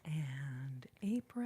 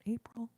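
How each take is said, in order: First: Low, slow drawn-out April; whispered And April, dragged and low; odd drawn-out April. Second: Said in the usual way. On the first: Real, not acted. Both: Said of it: "I don't know why I said it like that".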